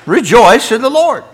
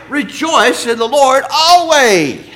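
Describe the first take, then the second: First: Louder, higher, driving it home; emphatic repeat. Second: Higher, louder and slow, drawn out; proclaiming the verse. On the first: Preacher teasing the congregation, loud and emphatic. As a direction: ring out the verse like they missed it. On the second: Preacher proclaiming the verse to the church, slow and loud. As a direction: stretch every word like a call to praise. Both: Acted.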